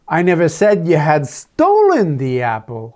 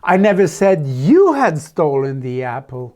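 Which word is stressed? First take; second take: stolen; you. First: The word "stolen" carries the stress. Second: The word "you" carries the stress. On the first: It was taken, not stolen. "Oh, I just said you had taken it, thinking it was yours" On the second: A different person was accused. "No, I said it was Jennifer"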